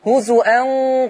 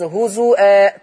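First: The word ends in an n sound, linked onward. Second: The word ends in a long vowel, stopped. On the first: The reciter joins this word to the next. "ولو وصلتيها هوزو أن قال" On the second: The reciter pauses on this word. "فلما نقف عليها بس هوزو آآ"

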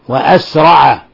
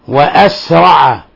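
The two takes are said the same way.

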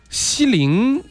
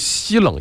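First: The second syllable sounds like lin. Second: The second syllable sounds like leng. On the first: The speaker calls it right. "应该读西林" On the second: The speaker calls it wrong. "我刚才是读成西冷音社了啊"

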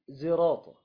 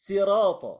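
First: The first consonant is blended toward z. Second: The first consonant is a plain s. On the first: "وبالإشمام" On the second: "وبالسين"

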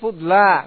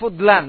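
First: The word ends in a vowel without n. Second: The word ends with an added n sound. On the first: The word is indeclinable, taking no nunation. The speaker calls it right. "Ini fudla. Enggak ada tanwinnya" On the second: The word would be declinable, taking nunation. The speaker calls it wrong. "Kalau munsharif fudlan"

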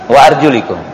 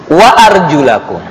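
First: The vowel after arjul is an i sound. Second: The vowel after arjul is an a sound. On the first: The feet are to be wiped. "Yang pertama dibaca dengan hafad atau jar" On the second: The feet are to be washed. "dibaca dengan nasab dan tanda nasabnya fathah"

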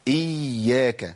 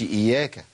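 First: The y sound is doubled and held long. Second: The y sound is single and short. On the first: The speaker calls it right. "يبقى لازم انطق ايه؟ حرفين. يبقى اقول ايه؟" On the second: The speaker calls it wrong. "ما اقولش"

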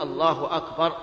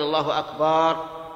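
First: The vowel after the b sound is short. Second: The vowel after the b sound is long. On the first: The speaker calls it right. "لا بد أن يقول الله أكبر" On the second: The speaker calls it wrong. "ولا يجوز أن يمد الباء"

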